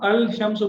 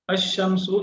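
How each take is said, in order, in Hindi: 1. 'sh' से पहले 'l' साफ़ बोला जाता है। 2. 'l' साइलेंट है, 'sh' में मिल जाता है। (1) "ये गलत हो जाएगा" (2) "इसमें आप देखें लाम साइलेंट है"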